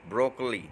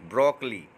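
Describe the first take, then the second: No difference in how they are said.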